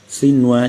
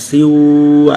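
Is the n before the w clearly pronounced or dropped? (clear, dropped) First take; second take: clear; dropped. First: The n sound before w is pronounced clearly. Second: The n sound before w is dropped. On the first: The speaker calls it right. "nun dengan waw maka menjadi idhar ini" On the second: The speaker calls it wrong. "jadi bukan siwa"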